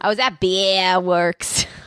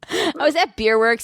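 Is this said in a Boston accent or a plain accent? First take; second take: Boston; plain. First: It is said in an attempted Boston accent. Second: It is said in the speaker's ordinary accent.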